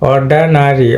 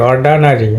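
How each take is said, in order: First: The second vowel is a weak 'uh' sound. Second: The same.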